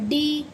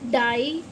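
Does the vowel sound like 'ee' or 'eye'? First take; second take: ee; eye. First: The vowel sounds like 'ee'. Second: The vowel sounds like 'eye'. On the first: The speaker calls it wrong. "इसे हम डियर या डी ऐसे नहीं पढ़ते" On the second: The speaker calls it right. "आई की voice निकालेगा"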